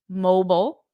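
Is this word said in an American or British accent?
American. It is said in an American accent. "in American English, we say mobile"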